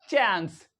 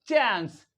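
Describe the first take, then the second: The two takes are said the same way.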